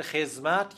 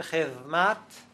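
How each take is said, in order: First: خدمت with z in place of d; later z form. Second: خدمت with interdental th in place of d; old zal form. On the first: Linguist gives the form heard in many regions, خدمت said with z. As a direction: say خدمت as "khez-mat". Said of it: "دو مرتبه تبدیل شده است به خدمت". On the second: Linguist traces an Arabic word's change, خدمت with a th sound. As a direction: say خدمت as "khedh-mat", th as in "this". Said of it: "تبدیل شده است به خدمت". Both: Shown as a demonstration.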